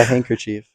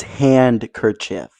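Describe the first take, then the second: First: Handkerchief said as "hanker-cheef". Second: Handkerchief slowly as "hand-ker-chiff", D clear; D sounded. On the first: Real, not acted. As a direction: run "hank" into "er", no D in handkerchief. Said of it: "you said hanker". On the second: Shown as a demonstration. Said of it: "So you forgot the D".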